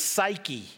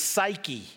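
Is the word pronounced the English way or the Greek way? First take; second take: English; English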